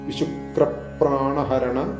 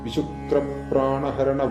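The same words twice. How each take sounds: First: The phrase is said with strong stress. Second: The phrase is said flatly without stress. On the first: The speaker calls it right. "ഒന്ന് stress ചെയ്തുകൊണ്ട് ഉച്ചരിച്ചു പോവുക" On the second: The speaker calls it wrong. "ഇതിൽ മിക്ക ആളുകളും ഇങ്ങനെയാണ് ചൊല്ലാറുള്ളത്"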